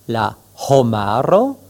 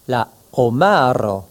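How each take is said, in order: First: The H at the start is breathed out. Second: The H at the start is dropped. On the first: It means humanity. The speaker calls it right. "il est important de bien prononcer ce H aspiré" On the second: It sounds like the word for lobster. The speaker calls it wrong. "risquerait de devenir la homaro, le homard"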